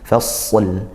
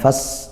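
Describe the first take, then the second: First: The final l sound is clearly pronounced. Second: The final l sound is dropped. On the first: The speaker calls it right. "harus tetap disempurnakan lamnya" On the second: The speaker calls it wrong. "bukan fas hilang nanti lamnya"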